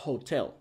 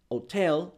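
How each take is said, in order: First: The word begins with an audible h sound. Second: The word begins with no h sound. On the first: "si fuera consonante" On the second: "porque ellos la H la hacen muda"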